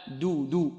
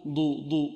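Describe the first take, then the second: First: Slow, light دو; thin, unemphatic d in دو; correct light d. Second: Heavy, thickened d as ضو; wrong heavy d. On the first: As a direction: say دو cleanly, tongue light. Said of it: "مرققة". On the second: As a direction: mistaken emphatic ضو instead of a light du. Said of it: "لا نقول يصدر". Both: Shown as a demonstration.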